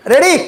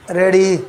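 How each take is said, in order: First: High, bright-rising one-word check; rousing call. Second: Low one-word check; low-key check. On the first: Preacher checks the congregation is ready, rousing high call. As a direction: call it out higher, as a question. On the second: Preacher repeats the check to congregation, low-key. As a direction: drop the pitch on the question. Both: Real, not acted.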